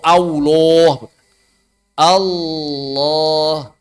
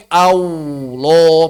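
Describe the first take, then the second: First: "Allah" said "aloh" with an open O, no W; correct O sound. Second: "Allah" said as "aulo" with a W glide; wrong W sound. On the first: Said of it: "pakai O". ("Allah" benar, berbunyi "aloh" tanpa W) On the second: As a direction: slip a W into "Allah". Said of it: "Bukan pakai W". ("Allah" salah, berbunyi "aulo") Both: Shown as a demonstration.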